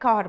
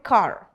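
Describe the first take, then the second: First: It is said in an Indian accent, R not rolled. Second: It is said in an American accent, R rolled. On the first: "यहाँ पे कार बोलते हैं" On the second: "वहां पे कार, तो आर को वो रोल करते हैं"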